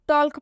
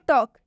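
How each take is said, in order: First: The L sound is pronounced before the K. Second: The L sound is silent before the K. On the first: The speaker calls it wrong. "जो कि बिल्कुल गलत उच्चारण हो जाता है" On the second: The speaker calls it right. "इसमें एल silent होता है"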